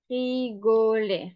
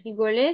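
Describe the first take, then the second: First: "rigoler" spread out syllable by syllable; slow dictation. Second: Said in the usual way. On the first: Shown as a demonstration. Teacher dictating "rigoler" to learners, slow measured delivery. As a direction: say "rigoler" slowly for someone writing. Dictates word slowly, then repeats normally.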